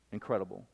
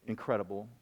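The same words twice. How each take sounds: The two takes are said the same way.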